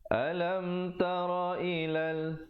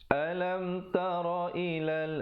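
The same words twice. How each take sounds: No difference in how they are said.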